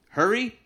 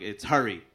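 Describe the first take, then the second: First: "Hurry?" asked high and louder, rising; high, loud, unsure "Hurry?"; mispronounced Hurry. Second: Low and firm, Hurry with the er vowel; correct Hurry. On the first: Retold or imitated. Confused stranger asking Hurry?, high and rising. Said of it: "this guy asked me what my name is". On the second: Shown as a demonstration. Correcting a stranger, Hurry low and firm. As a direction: Hurry said low, with a short er-sound like "hurry". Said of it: "I'm like".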